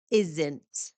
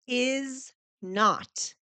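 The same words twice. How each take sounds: First: "isn't" run together as one word; contraction. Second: "Is not" as two full, separate words; uncontracted form. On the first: Teacher showing learners the contraction, "isn't" as one lowered word. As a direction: join is and not into "isn't", pitched lower. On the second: Teacher showing learners the uncontracted words, "Is not" said separately. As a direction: say "Is" and "not" apart, each word complete. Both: Shown as a demonstration. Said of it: "I made it into a contraction".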